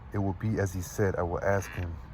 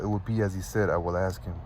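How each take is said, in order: First: The line is read more slowly. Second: The line is read quickly. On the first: The speaker calls it right. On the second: The speaker calls it wrong.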